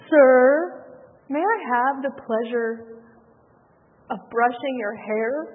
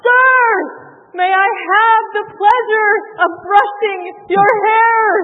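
First: It is said quietly and timidly. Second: It is blurted out loudly.

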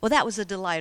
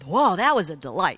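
First: The delight sounds mild and understated. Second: The delight sounds intense and excited.

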